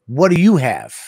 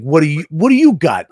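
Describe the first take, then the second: First: Retold question, less forceful; tone-issue question. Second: Louder, pushy retold question; confrontational question. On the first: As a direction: ask it with a slight edge. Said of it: "it was tone issues". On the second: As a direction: ask it like a mild challenge. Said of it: "It wasn't that. It was like, it was tone issues".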